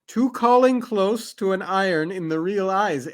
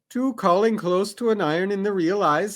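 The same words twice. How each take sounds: First: It is read slowly and carefully. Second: It is read at normal, quick speed.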